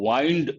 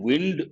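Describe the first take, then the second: First: It is pronounced as the verb form. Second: It is pronounced as the noun form. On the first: It means turning something, like a wristwatch. "you can say wind as a verb" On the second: It names moving air. "You can say wind as a noun"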